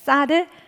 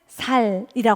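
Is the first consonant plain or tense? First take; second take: tense; plain. First: The first consonant is a tense s. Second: The first consonant is a plain s. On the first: The speaker calls it right. "쌀 발음을 잘 못하시는 지역 있잖아요" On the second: The speaker calls it wrong. "쌀을 살이라고 하잖아요"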